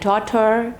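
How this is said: It has an American accent with a sounded R. "in American accent they roll their R, okay, like daughter"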